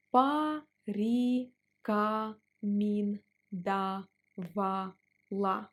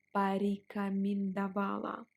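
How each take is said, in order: First: Порекомендовала drawn out slowly. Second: Said in the usual way. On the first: Shown as a demonstration. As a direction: stretch порекомендовала syllable by syllable. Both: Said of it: "Let's pronounce it slower".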